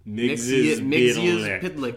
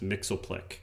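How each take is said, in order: First: The name is said with all its syllables. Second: The name is said with syllables cut out. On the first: The speaker calls it right. "that's the more correct pronunciation" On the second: The speaker calls it wrong. "a little simplified"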